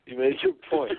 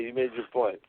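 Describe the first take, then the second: First: "You made your point" said again much higher, laughing; amused high repeat. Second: Said in the usual way. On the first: Real, not acted. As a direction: tease it back up high.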